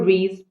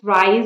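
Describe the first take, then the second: First: The vowel sounds like 'ee'. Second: The vowel sounds like 'eye'. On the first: "it's pronounced Rise or Reese" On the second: "it's pronounced Rise or Reese"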